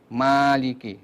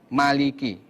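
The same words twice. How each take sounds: First: The first vowel is drawn out long. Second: The first vowel is held short. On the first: It means the one who owns or controls. "mimnya dibaca dengan mat" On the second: It means king, the one who reigns. "fathahnya mim, itu dibaca pendek"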